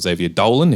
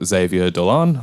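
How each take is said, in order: First: The name is pronounced the Australian way. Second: The name is pronounced the French way.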